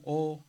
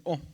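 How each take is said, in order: First: "O" drawn out long, the big omega. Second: "O" said short and clipped, the small omicron; a quick, brief "O" sound. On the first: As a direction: stretch the "O" out slowly. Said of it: "la omega se pronunciaba más largo". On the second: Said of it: "la omicron se pronunciaba simplemente O". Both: Shown as a demonstration.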